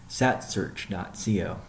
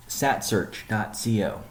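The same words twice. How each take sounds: The two takes are said the same way.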